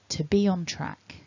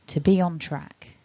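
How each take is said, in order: The two takes are said the same way.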